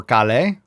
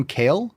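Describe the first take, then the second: First: "kale" said in two syllables, ka-lay; alternative pronunciation. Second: Said in the usual way. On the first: Shown as a demonstration. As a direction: try "kale" as "kah-LAY", questioning. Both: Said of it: "What's C A L E?".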